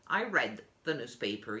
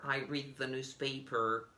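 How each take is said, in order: First: The verb read is said like red. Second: The verb read is said like reed. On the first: It happened in the past. "In the past, you will say" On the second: It happens regularly now. "In the present, you say"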